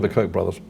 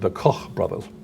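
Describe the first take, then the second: First: The name Koch has an American pronunciation. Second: The name Koch has a German pronunciation.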